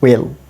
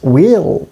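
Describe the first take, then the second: First: The vowel is short. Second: The vowel is long. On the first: "or it may be pronounced will" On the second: "E sound is long here"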